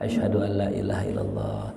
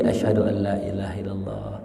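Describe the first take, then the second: No difference in how they are said.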